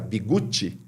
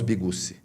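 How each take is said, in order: First: The middle consonant is a 'ts' sound. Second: The middle consonant is a plain 's' sound. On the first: This is the Italian way to say the name. "apesar do correto de se pronunciar Bigutti" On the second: This is how the family says the name. "nós falamos Bigussi"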